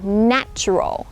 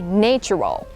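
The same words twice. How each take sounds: First: The first vowel is a short 'a' sound. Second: The first vowel is a long 'ay' sound. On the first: The speaker calls it right. "You would notice that the vowel at the beginning is changed" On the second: The speaker calls it wrong. "many people think it's nature. So adjective would be natural. But no, not really"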